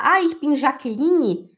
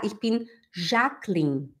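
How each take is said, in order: First: Jaqueline with an added "ee" ending, -lini; slow, higher "Jaqueline" ending in "lee-nee"; Brazilian-style Jaqueline. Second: Jacqueline ending in "-klin", silent final E; slowly, two syllables, "Jacqueline" as "zhak-lin"; German-style Jacqueline. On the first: Teacher mimicking the mistake in German, Jaqueline said "-lini". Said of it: "não existe esse li e não existe ni". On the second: Teacher modelling the introduction, Jacqueline with silent final E. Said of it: "você tem que falar". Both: Shown as a demonstration.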